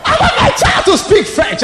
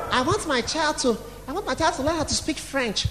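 First: Loud, high hammed-up shout; mock parental demand. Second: Softly spoken, mock-proud parent; understated parent's wish. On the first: Mocking the parent, now shouted. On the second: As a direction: say it quietly, playing the parent. Plays a proud parent's excuse.

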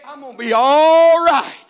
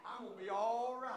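First: Much louder and higher, slowed; preacher's shout. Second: Softer, almost to himself; quiet build-up. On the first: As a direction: burst it out to the congregation. Shouted repeat of quiet line. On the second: Quiet set-up before shouted repeat. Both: Acted.

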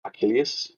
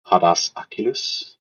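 First: Achilles said as a-KIL-ee-us, higher and softer; corrected pronunciation. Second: Achilles said as a-KIL-es, quick and unsure; mispronounced name. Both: Shown as a demonstration.

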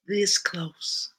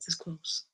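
First: High, voiced Southern lament; pained Southern emphasis, pitched up; Southern accent. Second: Hushed, whispery Southern lament; soft, high Southern aside; Southern accent. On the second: Acted. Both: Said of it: "in your best Southern accent".

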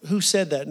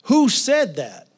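First: Said in the usual way. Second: High, loud, drawn-out demand; calling out. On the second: Retold or imitated. Preacher acts the sick man challenging the inner voice, calling out. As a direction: call it out slowly to an unseen speaker. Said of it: "he said was this".

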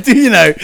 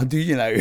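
First: Much higher and louder, through laughter; amused self-quote. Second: Said in the usual way. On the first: Retold or imitated. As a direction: repeat your own line, cracking up. Repeats his reply, laughing.

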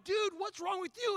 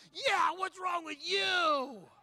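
First: Higher-pitched crowd reproach; indignant challenge. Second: High, loud, long-drawn yell; triumphant accusing shout. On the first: Onlookers scolding the man with coffee, indignant raised voice. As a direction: call him out in disbelief. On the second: Preacher backing up onlookers against the man, drawn-out shout. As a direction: echo the crowd, stretching every word. Preacher joins the crowd's reproach. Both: Retold or imitated.

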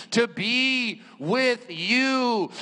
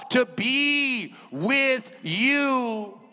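No difference in how they are said.

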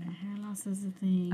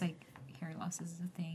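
First: Slow, whispered repeat; slow whispered echo. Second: Whispered aside. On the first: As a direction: echo it back softly and slowly. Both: Real, not acted. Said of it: "repeated phrase".

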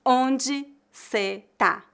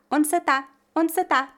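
First: "Onde cê tá" very slow, each word apart; word-by-word reduced forms. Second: "Onde cê tá" quick, higher, all linked; natural reduced pronunciation. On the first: Teacher points out the reduction, "Onde cê tá" slow and separated. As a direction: pause between "Onde", "cê" and "tá". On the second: Teacher models it at speed, "Onde cê tá" linked. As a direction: link "Onde cê tá" as one casual unit. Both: Shown as a demonstration. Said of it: "Veja que eu reduzi a palavra".

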